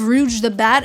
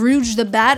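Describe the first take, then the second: First: It is said with an English accent. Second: It is said with an English accent.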